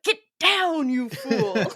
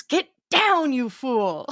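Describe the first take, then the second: First: Higher, hammed-up order; a hint of Frederick's panicked command; family quoting Frederick. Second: Hammy movie-hero hiss of an order; a hint of Frederick's panicked command; quoting Frederick. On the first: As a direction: toss it off like a family in-joke. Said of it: "we're like". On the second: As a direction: Get down snapped out high. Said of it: "Frederick goes".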